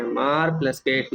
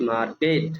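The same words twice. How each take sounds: First: Slow syllable split. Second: Said in the usual way. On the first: Shown as a demonstration. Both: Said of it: "और मैं ये word बोलूँगा".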